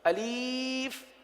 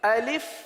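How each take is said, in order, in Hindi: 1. दूसरा स्वर लंबी 'ee' ध्वनि है। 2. दूसरा स्वर छोटी 'i' ध्वनि है। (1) "अलीफ पढ़ना, ये गलत है।" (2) "तो अलिफ को इस तरह पढ़ेंगे"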